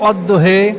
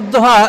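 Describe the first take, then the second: First: The word ends with a fronted 'eh' vowel. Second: The word ends with an open 'ah' vowel. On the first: "এটাকে কোনো জাতি পড়তো অদ্দোহে" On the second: "এটা যেমন অদ্দোহা"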